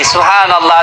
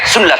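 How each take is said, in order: First: It is unhurried with every syllable clear. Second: It is rushed and syllables are swallowed. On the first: The words of the remembrance are clear. The speaker calls it right. "Maka perbaiki" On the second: The words of the remembrance become unclear. The speaker calls it wrong. "Zikirnya terlalu cepat"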